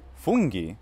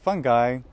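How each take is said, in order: First: The word has an Italian pronunciation. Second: The word has an English pronunciation. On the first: It is the Italian word for mushrooms. "the Italian word, well, that has to be pronounced like Italian" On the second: It means various kinds of fungus. "the various kinds of funguses or fungi"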